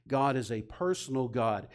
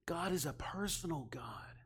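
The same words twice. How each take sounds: First: Said in the usual way. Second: A soft, breathy whisper, every word unvoiced. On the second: Real, not acted. Preacher whispering the key truth to the congregation, intimate.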